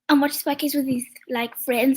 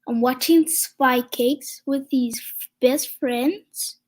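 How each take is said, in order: First: It is said at normal speed. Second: It is said slowly.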